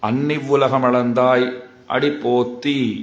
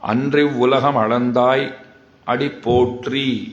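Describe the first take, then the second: First: The clusters are softened to nn and tt. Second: The ndr and tr clusters are pronounced fully. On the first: "சொல்லும்போது அன்னி உலகம் அளந்தாய் அடி போத்தி அப்படின்னு சொன்னேன்" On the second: "அப்படின்னு தான் சொல்லியிருக்கணும்"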